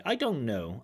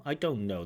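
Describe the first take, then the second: First: "don't know" run together with no T, as "I don' know"; dropped t. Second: Said in the usual way. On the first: Shown as a demonstration. Examiner demonstrates the student's assimilated "don't know". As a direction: swallow the T in "don't" so it blends into "know". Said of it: "nice assimilation there". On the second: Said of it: "That T is dropped".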